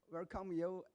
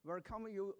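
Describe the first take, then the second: No difference in how they are said.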